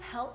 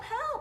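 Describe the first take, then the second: First: The word is said in a calm, casual tone. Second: The word is cried out loudly and urgently. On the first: A polite request for assistance. "Hey, can you help me, please?" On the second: A desperate call in an emergency. "help, I need help, I'm drowning"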